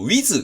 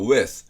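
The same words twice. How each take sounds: First: The word is said with Japanese katakana pronunciation. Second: The word is said with English pronunciation. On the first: The speaker calls it wrong. "カタカナ発音の日本語のごじゅう音表ベースのwith" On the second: The speaker calls it right. "英語ベースのwith"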